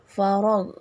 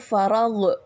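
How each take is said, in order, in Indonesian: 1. Bunyi gh halus, tidak dipantulkan. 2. Bunyi gh dipantulkan dengan lepasan. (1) "enggak boleh dipantulkan" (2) "bukan farag"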